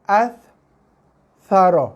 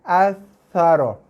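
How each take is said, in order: First: The word breaks into two parts with a stop. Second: The word flows smoothly with no stop between parts. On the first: The speaker calls it wrong. "Dia tekan, lepas. As. Saro. Ah, itu bacaan yang salah" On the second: The speaker calls it right. "Dia kena sekali tekan, sekali lepas"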